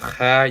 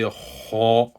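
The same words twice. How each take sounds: First: The letter is said light, without a full mouth. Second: The letter is said heavy, with a full mouth. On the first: The speaker calls it wrong. "instead of saying kha" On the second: The speaker calls it right. "you pronounce them with heaviness"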